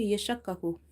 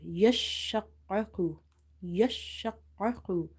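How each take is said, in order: First: "yashakkaku" said quickly, without holding the doubled letters; "yashakkaku" with the shadda letters said only once; letter pronounced once. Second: "Yashakkaku" slow, with long held sh and doubled k; "Yashakkaku" pronounced slowly, each shadda letter sounded twice; emphasized doubled letters. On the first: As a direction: say "yashakkaku" evenly with no emphasis on the doubled consonants. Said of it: "it will be pronounced once". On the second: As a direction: lean on the doubled consonants in "Yashakkaku". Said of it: "emphasize on the letter".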